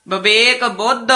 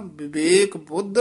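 First: ਵਿਵੇਕ said bəʋek with a v sound; ਵਿਵੇਕ said quickly as bəʋek; wrong ਵਿਵੇਕ. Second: ਵਿਵੇਕ said bibek with a b sound and a short i; ਵਿਵੇਕ as bibek, b sounds clear; correct ਵਿਵੇਕ. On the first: Real, not acted. Student reciting, ਵਿਵੇਕ said wrongly. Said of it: "ਨਹੀਂ ਕਹਿਣਾ". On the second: Shown as a demonstration. Teacher modelling ਵਿਵੇਕ as bibek for the student. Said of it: "ਬੱਬੇ ਦੀ ਸਿਹਾਰੀ ਵੀ ਹੈ ਨਾ".

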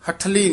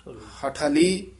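First: ਹਠਲੀ quickly, closed as "hath-li"; run-together hath-li. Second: ਹਠਲੀ slowly, with ਹ held apart from ਠ; ha-thali, slightly separated. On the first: Teacher shows what to avoid, ਹਠਲੀ run together as "hath-li". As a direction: join ਹ and ਠ into one syllable. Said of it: "ਨਹੀਂ ਕਹਿਣਾ ਹੈ". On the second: Teacher models the word, slow separated ਹ and ਠ in ਹਠਲੀ. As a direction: say "ha-tha-li", every syllable open. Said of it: "ਹਾਹੇ ਤੇ ਠੱਠੇ ਦੇ ਵਿੱਚ dash ਦੇ ਕੇ". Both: Shown as a demonstration.

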